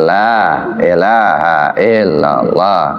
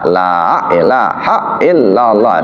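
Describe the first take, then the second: First: No extra vowel or glottal stop is added. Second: An extra vowel or glottal stop is added. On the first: The speaker calls it right. "Dia lempang saja" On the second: The speaker calls it wrong. "tambah alif atau tambah hamzah"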